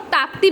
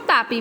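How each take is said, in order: First: ताप्ती said with a "p-t" cluster, taap-tee; variant pronunciation. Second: तापी said taa-pee, without a second t; alternative pronunciation. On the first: Teacher giving students one accepted name of the river, ताप्ती pronounced taap-tee. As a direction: sound both p and t in ताप्ती. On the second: Teacher giving students the other accepted river name, तापी pronounced taa-pee. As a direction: drop the t after the p in तापी. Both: Shown as a demonstration. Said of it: "आप कुछ भी pronounce कर सकते हैं".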